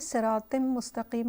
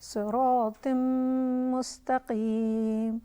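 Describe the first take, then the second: First: The m sound is clipped short. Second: The m sound is held long. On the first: The speaker calls it wrong. "नहीं है" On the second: The speaker calls it right. "मीम पर थोड़ा पॉज करेंगे"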